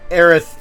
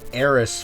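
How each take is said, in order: First: The name ends with a th sound. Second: The name ends with an s sound. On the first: This is the intended form of the name. The speaker calls it right. "Aerith is the proper pronunciation" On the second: This is the form used in the old translation. The speaker calls it wrong. "they translated it to Eris for some reason"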